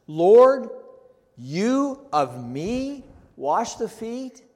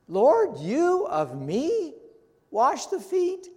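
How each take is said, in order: First: Slow, high, loud "you of me wash the feet" with "you" stressed; literal word order, emphatic. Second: Much higher, slow "you of me", climbing up to "feet"; stronger emphatic repeat. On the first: Preacher reading Peter's words literally, slow and emphatic. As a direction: spell out "you of me" word by word, slowly. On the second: Preacher repeating Peter's words literally, climbing higher in disbelief. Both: Shown as a demonstration. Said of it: "Literally, this is how it reads, ... for emphasis".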